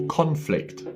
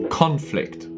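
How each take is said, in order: Both takes have the same delivery.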